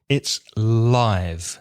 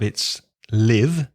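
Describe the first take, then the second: First: It has the vowel used for the adjective. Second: It has the vowel used for the verb. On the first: It describes something happening in real time. "If it's an adjective" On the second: It means to reside somewhere. "if it's a verb"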